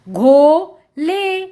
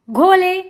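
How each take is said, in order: First: घो and ले slow and separate; sounding out. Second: Said in the usual way. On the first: Shown as a demonstration. Teacher reading to children, syllable by syllable. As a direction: stretch both halves: घो... ले. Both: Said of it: "उच्चारण करके पढ़ लिया".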